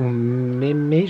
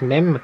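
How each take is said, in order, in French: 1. Le nom se prononce en deux syllabes. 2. Le nom se prononce en une syllabe. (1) "ou Mémé" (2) "je crois que ça se prononce Mem"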